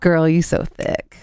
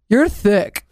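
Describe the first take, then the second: First: It is said in a playful, flattering way. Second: It is said bluntly and flatly.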